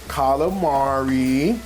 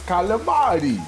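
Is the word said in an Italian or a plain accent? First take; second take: plain; Italian. First: It is said in a plain, everyday accent. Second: It is said in an exaggerated Italian accent.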